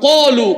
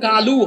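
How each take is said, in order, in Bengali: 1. প্রথম ব্যঞ্জনটি মোটা ও জোরালো। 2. প্রথম ব্যঞ্জনটি চিকন ও হালকা। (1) "আরবিতে সেটা কি হয়? কলু। কারণ আরবিতে সাতটা অক্ষর মোটা" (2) "বাংলায় যেটা কালু হয়"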